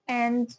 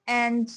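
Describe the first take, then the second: Both takes have the same delivery.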